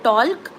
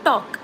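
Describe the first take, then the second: First: The L sound is pronounced in the word. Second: The L sound is left out of the word. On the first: The speaker calls it wrong. "we don't say talk" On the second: The speaker calls it right. "we say talk. ... L is silent"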